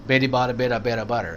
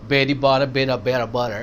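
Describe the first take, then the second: Both takes have the same delivery.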